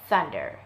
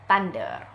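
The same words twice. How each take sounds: First: The word starts with a voiceless TH sound. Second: The word starts with a T sound. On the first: The speaker calls it right. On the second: The speaker calls it wrong.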